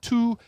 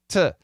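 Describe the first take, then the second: First: The vowel is a full long oo sound. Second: The vowel is reduced to a schwa. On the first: The speaker calls it wrong. "No, not to" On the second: The speaker calls it right. "Both of them are Schwab"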